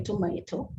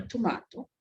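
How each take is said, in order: First: "tomato" said as tuh-MAY-toe; "tomato" with MAY as second syllable; American-style pronunciation. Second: "tomato" said as tuh-MAH-toe; "tomato" with MAH as second syllable; British-style pronunciation. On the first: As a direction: say "tomato" with a long AY in the middle. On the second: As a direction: say "tomato" with a broad AH in the middle. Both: Shown as a demonstration. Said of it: "or tomato".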